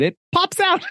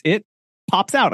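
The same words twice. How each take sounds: First: Very high, cutesy storybook voice; high-pitched read-aloud for kids; children's story reading. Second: A hint of storybook narrator, raised pitch; pause, then lift it like reading to kids; higher, lightly playful read-aloud voice; children's story reading. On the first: Retold or imitated. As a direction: sing it out like a picture book. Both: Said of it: "like I was reading a children's story".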